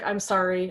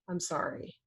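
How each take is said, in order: First: It is said in a dismissive, eye-rolling way. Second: It is said in a sincere, remorseful way.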